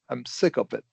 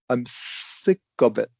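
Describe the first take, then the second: First: It is said at a faster pace. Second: It is said at a slower pace.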